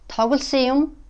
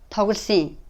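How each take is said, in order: First: The final particle keeps its full u vowel. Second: The u is dropped and the particle is linked.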